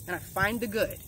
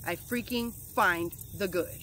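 First: Said in the usual way. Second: "freaking" leaned on, whole line slowed; slow down and punch "freaking"; slow insistent "I freaking find the good"; stress on freaking. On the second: Real, not acted. Emphatic repeat of affirmation.

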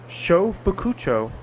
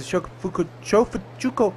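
First: "Shofukucho" sounded out slowly, piece by piece; slow, deliberate "Shofukucho"; careful retry. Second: "Shofukucho" fumbled with a false start; stumbled place name. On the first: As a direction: take "Shofukucho" slowly to get every syllable out. Retries the name after stumbling. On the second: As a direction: trip over "Shofukucho", breaking off and restarting. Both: Real, not acted.

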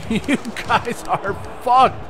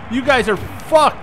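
First: Drawn-out, slow gloat; slow gloating taunt. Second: High, excited gloat; gloating taunt. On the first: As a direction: stretch every word to taunt. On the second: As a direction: rub it in their faces. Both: Real, not acted. Gloating at opponents.

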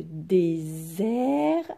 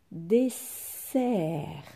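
First: Désert slowly, the s a long buzzed "zzz"; stretched Z sound. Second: Dessert slowly, the ss a long hissed "sss"; stretched S sound. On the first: Teacher contrasts two look-alike words for pupils, Z drawn out. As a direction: draw out désert as "dé-zzzert". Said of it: "ici il fallait lire". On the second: Teacher contrasts two look-alike words for pupils, S drawn out. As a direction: draw out dessert as "dé-sssert". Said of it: "les deux S qui sont plus forts". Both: Shown as a demonstration.

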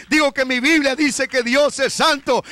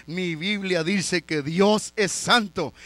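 First: Repeated louder for emphasis; insistent preacher's repeat; louder restatement. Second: Said in the usual way. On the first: Shown as a demonstration. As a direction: drive the point home, raise the voice.

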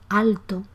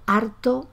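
First: Said in the usual way. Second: "harto" for alto, R replacing the L. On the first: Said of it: "por alto". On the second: Shown as a demonstration. Teacher giving another Andalusian example, "harto" with R for L. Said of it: "a favor de R".

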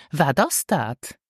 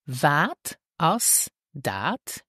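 First: "Wat as dat" run together as one linked phrase; more natural. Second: "Wat as dat" drawn out with gaps between words; slow, word by word. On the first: Teacher shows learners the natural version, words linked. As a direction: say "Wat as dat" joined up, without gaps. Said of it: "more naturally". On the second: Teacher models the question for learners, slow and separated. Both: Shown as a demonstration.

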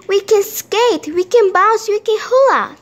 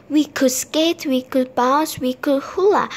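First: High, loud, joyful listing; thrilled storybook character, pitched well up; excited. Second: Mildly wistful, understated listing; restrained, sad character line; sad wishing. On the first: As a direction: reel off the fun with glee. Simon rejoices, sad list now happy. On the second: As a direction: list lost chances with a touch of sadness. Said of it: "said Simon sadly". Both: A narrator's reading.

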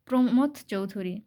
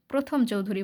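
First: "প্রমথ" said clearly as pro-mo-tho, then Chowdhury; "প্রমথ Chowdhury" with the m before the th, said the right way; correct name. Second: "প্রথম" said as pro-thom, th before m, the mistake students make; "প্রথম Chowdhury" read like the word for first; common misreading. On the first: Teacher to students, showing the correct name "প্রমথ" as pro-mo-tho. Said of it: "এটা আবার তোমরা ভুল পড়িও না". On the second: Teacher to students, demonstrating the misreading "প্রথম" as pro-thom. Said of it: "অনেকেই ভুল পড়ে যে প্রমথ চৌধুরী না বলে". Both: Shown as a demonstration.

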